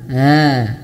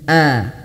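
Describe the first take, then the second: First: The hamzah sound is dragged out. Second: The hamzah sound is cut off sharply. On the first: The speaker calls it wrong. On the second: The speaker calls it right. "dia jangan sampai diseret-seret"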